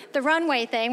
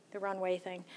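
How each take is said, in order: First: Said in the usual way. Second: Trailing "runway thing" soft and low; muttered, unsure. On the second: Real, not acted. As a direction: mumble it, searching for the word. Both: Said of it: "that's what we're calling it".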